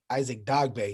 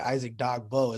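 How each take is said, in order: First: The surname ends with an 'ay' sound. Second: The surname ends with an 'oh' sound. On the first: The speaker calls it right. "the correct way to say it is Dogbe" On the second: The speaker calls it wrong. "I pronounced his name earlier"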